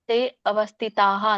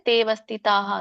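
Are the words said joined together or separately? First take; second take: separately; joined. First: The two words are said separately, keeping the a. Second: The two words run together as one word. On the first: "ಅಂತ ಹೇಳ್ಬೇಕು ಬಿಡಿಸಿ" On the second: "ಅಂದ್ರೂ ತಪ್ಪೇನಿಲ್ಲ, ಸರಿ ಇದೆ"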